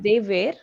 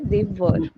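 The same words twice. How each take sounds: First: The word were sounds like where. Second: The word were sounds like wer. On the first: The speaker calls it wrong. "instead of they were" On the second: The speaker calls it right. "you'll say they were"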